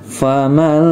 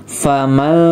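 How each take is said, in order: No difference in how they are said.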